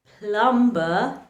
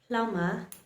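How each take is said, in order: First: A b sound is heard after the m. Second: No b sound is heard after the m. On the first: The speaker calls it wrong. "instead of pronouncing" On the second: The speaker calls it right. "the right way to pronounce these words"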